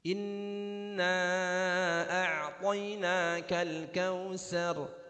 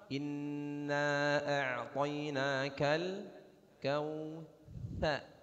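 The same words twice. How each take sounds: First: Kautsar is said with an s sound. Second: Kautsar is said with a th sound. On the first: The speaker calls it wrong. "maksud kita tha, tapi yang keluar sin, tetap salah" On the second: The speaker calls it right. "Harusnya begitu"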